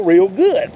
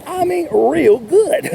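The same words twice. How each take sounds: First: Said in the usual way. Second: "real good" stretched slow and higher; drawn-out emphasis. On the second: Shown as a demonstration. Salesman stressing how well enthusiastic sellers do, slow and emphatic. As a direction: lean on "real good", drag it out.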